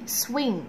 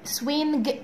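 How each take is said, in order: First: The word ends in a nasal with no g. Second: A separate hard g sound ends the word. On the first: The speaker calls it right. "لا ما تنطقش لتر جي" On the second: The speaker calls it wrong. "مش عايزاك تقول swing"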